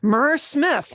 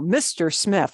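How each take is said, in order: First: The title is said as one syllable, 'mer'. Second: The title is said as two syllables, 'mister'. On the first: The speaker calls it wrong. "M R isn't mer" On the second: The speaker calls it right.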